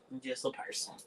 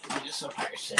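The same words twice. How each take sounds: First: Quietly resigned "I'm just a person"; resigned murmur. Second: Whispered echo, no voice; whispered "I'm just a person", voiceless. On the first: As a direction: let it drop, softly conceding. Resigned line, said twice. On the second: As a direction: breathe it out as a whisper to yourself. Echo of previous line. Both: Real, not acted.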